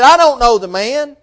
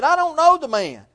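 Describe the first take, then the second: First: A mild mock oath, a bit higher and louder; cursing denial. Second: A hint of fear, pitched much higher; fearful denial. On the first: Peter denies knowing Jesus to the crowd, mock swearing. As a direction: spit out the denial like a cornered man swearing. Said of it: "with cursing and swearing". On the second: Peter, scared for his life, denies Jesus, lightly frightened. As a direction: deny it like a man afraid for his life. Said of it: "being fearful of his life".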